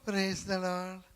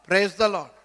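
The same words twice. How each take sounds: First: It is said in a whining, self-pitying tone. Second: It is said in a grudging, resentful tone. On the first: The speaker envies the other person's good fortune. "ஐயோ நீங்க நல்லா இருக்கிறீங்க, என்னைய பாருங்க" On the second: The speaker is sorry the other person survived. "அதாவது என்ன அளவுக்கு நீ வந்த இன்னைக்கு சனியனே"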